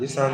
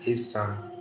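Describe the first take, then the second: First: The middle consonant is an sh sound. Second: The middle consonant is a plain s sound. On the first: This is how outsiders usually say it. The speaker calls it wrong. "normally they say Ishan, but it's not pronounced Ishan" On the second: This is how the people themselves say it. The speaker calls it right. "It's Isan"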